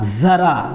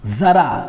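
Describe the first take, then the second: No difference in how they are said.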